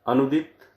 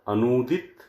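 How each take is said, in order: First: The second vowel is a short 'u'. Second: The second vowel is a long 'oo'. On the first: The speaker calls it wrong. "बाईं ओर जो शब्द लिखे हुए हैं वो अशुद्ध हैं" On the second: The speaker calls it right. "दाईं ओर जो शब्द लिखे हैं वो शुद्ध है"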